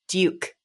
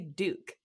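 First: The vowel has a 'y' glide, like 'dyook'. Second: The vowel is a plain 'oo' with no glide. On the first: This is the other person's pronunciation, learned in theater school. "you would say Duke" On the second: This is the speaker's own usual pronunciation. "I say Duke"

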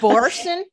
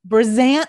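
First: The middle consonant is an S sound. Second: The middle consonant is a Z sound. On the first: The speaker calls it wrong. "Am I saying it wrong?" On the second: The speaker calls it right. "Oh, there's a Z"

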